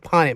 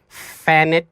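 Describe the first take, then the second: First: The name begins with a P sound. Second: The name begins with an F sound. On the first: The speaker calls it right. "my name is Ponnet" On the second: The speaker calls it wrong. "The teachers would be like, Fannet, because the P H"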